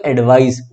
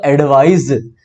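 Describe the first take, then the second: First: एडवाइस ending in a hissed s; noun pronunciation. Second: Slow एडवाइज ending in a buzzed z; verb pronunciation. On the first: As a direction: say एडवाइस with a voiceless final s. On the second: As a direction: say एडवाइज with a voiced final z. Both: Shown as a demonstration. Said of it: "इनके pronunciation में अंतर है".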